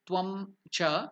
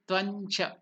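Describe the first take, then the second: First: The two words are said separately, ending in m. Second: The words are joined, with an n sound. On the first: The speaker calls it wrong. "it will be not Tvam Cha" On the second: The speaker calls it right. "it will be Tvancha"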